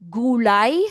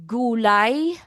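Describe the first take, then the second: The two takes are said the same way.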